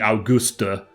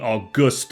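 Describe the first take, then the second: First: The final E is pronounced. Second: The final E is silent. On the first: The speaker calls it right. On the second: The speaker calls it wrong.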